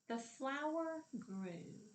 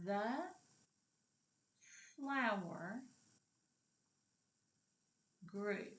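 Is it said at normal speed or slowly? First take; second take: normal speed; slowly. First: It is said at normal speed. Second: It is said more slowly.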